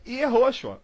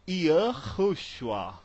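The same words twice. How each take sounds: First: YEHOSHUA as ye-HO-shua; Portuguese-style Yehoshua, ye-HO-shua; Brazilian reading. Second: YAHUSHUA drawn out as yuh-KHOO-shua; slow demo of Yahushua, yuh-khoo-shu-AH; American reading. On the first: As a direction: say Yehoshua with clear E and O, as spelt. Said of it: "A gente lê Yehoshua". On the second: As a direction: say Yahushua with 'yuh' and a rasped H. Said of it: "ele vai ler Yahushua". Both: Shown as a demonstration.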